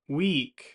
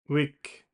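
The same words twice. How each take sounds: First: The vowel is long and tense. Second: The vowel is short and lax. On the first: The speaker calls it right. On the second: The speaker calls it wrong.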